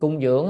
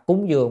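First: The first syllable has a level tone. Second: The first syllable has a rising tone. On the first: It means only to supply something. The speaker calls it wrong. "mình nếu mà đọc không có dấu á" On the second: It means to make a respectful offering. The speaker calls it right. "nên phải đọc cúng dường"

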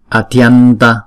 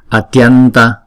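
Both takes have the same delivery.

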